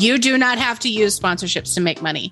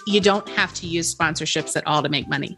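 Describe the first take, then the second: First: It is said noticeably louder. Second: It is said at normal volume.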